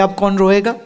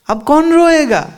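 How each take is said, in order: First: Said in the usual way. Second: अब कौन रोएगा said higher, quicker, with a falling end; amused rhetorical question, pitched up; playful punchline. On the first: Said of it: "repeated line, first take". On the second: Shown as a demonstration. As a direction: lift अब कौन रोएगा up high and land रोएगा with a fall. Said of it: "repeated line, second take".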